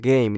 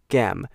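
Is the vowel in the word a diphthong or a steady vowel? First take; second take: diphthong; steady vowel. First: The vowel glides from a toward ee. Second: The vowel stays flat with no ee glide. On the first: The speaker calls it right. "并不是像我一样讲game" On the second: The speaker calls it wrong. "你讲的是gam，你忘记发那个e 的这个音"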